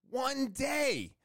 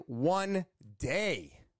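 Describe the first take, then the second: First: "One day." jumps much higher, amazed; excited echo. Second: Said in the usual way. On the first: Real, not acted. Telling viewers the job takes only a day, excited and amazed.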